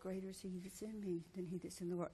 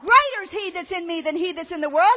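First: It is said quietly and timidly. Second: It is said loudly and boldly.

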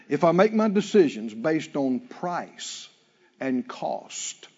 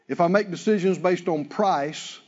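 First: It is said slowly. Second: It is said at a normal pace.

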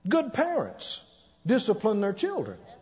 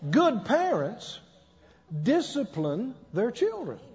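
First: It is said at a normal speed. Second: It is said very slowly.

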